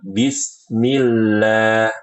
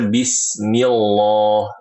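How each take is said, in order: First: The l in Allah sounds thin and light. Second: The l in Allah sounds thick and heavy. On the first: The speaker calls it right. "Yang benar" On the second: The speaker calls it wrong. "ini salah"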